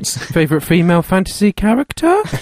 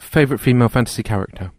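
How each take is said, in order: First: The voice rises at the end like a question. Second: The voice falls at the end like a statement. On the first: It is asked as a question. The speaker calls it right. "It is a question because there's a question mark on the end" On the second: It sounds like a plain statement. The speaker calls it wrong. "Is that a question or?"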